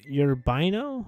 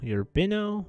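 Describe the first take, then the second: First: The name is said with three syllables. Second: The same.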